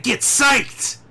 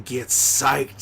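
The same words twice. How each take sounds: First: Much higher, louder, slow drill-sergeant yell of psyched; get psyched yell. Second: Rally him like a hype man; eager cheer. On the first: Yelling at Sam Darnold to get psyched, full shout. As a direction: bellow psyched like a coach losing patience. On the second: Cheering Sam Darnold on, lively call. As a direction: get psyched called out with pumped-up energy. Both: Acted. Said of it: "I said get psyched".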